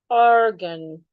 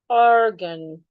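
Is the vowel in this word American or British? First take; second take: American; American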